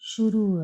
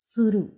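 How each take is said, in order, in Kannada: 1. ಪದ sh ಶಬ್ದದಿಂದ ಶುರುವಾಗುತ್ತೆ. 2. ಪದ ಸಾದಾ s ಶಬ್ದದಿಂದ ಶುರುವಾಗುತ್ತೆ. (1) "ಇಲ್ಲಿ ನಾವು ಶುರು ಅಂತ ಕರಿತೀವಿ" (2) "ಹಳ್ಳಿ ಜನ ಸುರು ಅಂತಾರೆ"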